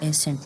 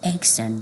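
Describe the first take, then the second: First: The double c is not said as k then s. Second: The double c is said as k then s. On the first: The speaker calls it wrong. "بعضی خلک وای accent خدا موږ سره accent نه دی" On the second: The speaker calls it right. "اول سی چې کوم د د کاف आवाज ورکی او دم به د سین आवाज ورکی"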